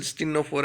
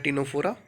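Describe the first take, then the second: First: Ctenophora with an S sound first, "stinnophora"; alternative pronunciation. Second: Ctenophora with a silent C, "tinophora"; alternative pronunciation. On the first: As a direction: start Ctenophora on "st". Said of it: "Ctenophora बोल". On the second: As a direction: start Ctenophora straight on T. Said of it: "Ctenophora या Ctenophora". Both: Shown as a demonstration.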